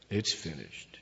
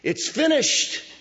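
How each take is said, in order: First: It is said in a defeated, resigned way. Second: It is shouted as a triumphant cry. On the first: Everything has ended in loss. The speaker calls it wrong. "it's not in a defeated way. This isn't Jesus going" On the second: The task has been accomplished in victory. The speaker calls it right. "This is a cry of victory"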